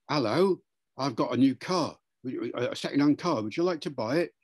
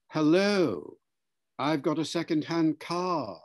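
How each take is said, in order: First: Lightly done London Cockney; a touch of Cockney car seller; Cockney accent. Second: Careful received pronunciation sales pitch; RP accent. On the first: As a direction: make an easy pitch in mild Cockney. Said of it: "A Cockney accent from London". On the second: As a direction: offer it in standard British RP. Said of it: "speak R P". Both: Shown as a demonstration.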